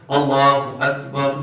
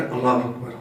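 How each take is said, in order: First: Slow Allah Akbar, long 'laaa'; slightly drawn out. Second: Quick, short Allah Akbar with no held vowel; hurried. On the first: Shown as a demonstration. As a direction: recite Allah Akbar unhurried, like the imam. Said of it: "تھوڑی لمبی کر کے پڑھتا ہے". (امام کی طرح ذرا لمبا کر کے) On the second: Retold or imitated. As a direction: rattle off Allah Akbar like a latecomer in a rush. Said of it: "جلدی میں آ کر". (جلدی جلدی، مختصر)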